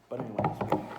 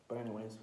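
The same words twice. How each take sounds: First: A loud, punchy "But anyways"; loud restart. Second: Said in the usual way. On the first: Shown as a demonstration. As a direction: bark "But anyways" to grab the thread back.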